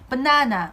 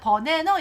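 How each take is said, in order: First: It is said with American English stress and rhythm. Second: It is said with flat Korean-style syllables. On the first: The speaker calls it right. "banana 이렇게 발음해요" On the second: The speaker calls it wrong. "진짜 버네너 이렇게 발음하진 않고요"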